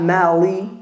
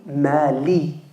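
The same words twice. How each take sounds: First: The l sounds like an English l. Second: The l sounds like an Arabic lam. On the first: The speaker calls it wrong. "Not mali" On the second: The speaker calls it right. "it's a lam"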